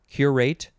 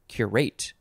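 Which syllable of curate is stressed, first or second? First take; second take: first; second. First: The stress is on the first syllable. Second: The stress is on the second syllable. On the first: "emphasis on the first" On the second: "or second syllables"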